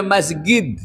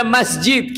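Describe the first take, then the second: First: "মসজিদ" said with a hard g, masgid; Egyptian hard g. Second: "মসজিদ" said with a j, masjid; Arabic j sound. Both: Shown as a demonstration. Preacher contrasting jim and gain pronunciations. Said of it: "কেউ বলে".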